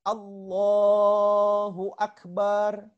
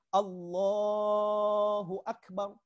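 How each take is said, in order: First: The 'ba' syllable is drawn out long. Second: It is said plainly, with no added sound. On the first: The speaker calls it wrong. "huruf ba-nya dipanjangkan" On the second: The speaker calls it right. "bukan Allahu Akbar"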